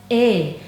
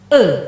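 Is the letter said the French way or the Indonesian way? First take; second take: Indonesian; French. First: The letter is said with Indonesian pronunciation. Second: The letter is said with French pronunciation. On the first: "Kalau dalam bahasa Indonesia diucapkan E" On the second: "kalau dalam bahasa Prancis kita mengucapkannya E"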